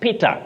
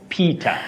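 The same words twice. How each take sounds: First: It is said with a Swahili-influenced pronunciation. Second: It is said with an English pronunciation. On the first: The speaker calls it wrong. "locally we find ourselves saying Peter" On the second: The speaker calls it right. "That is in English"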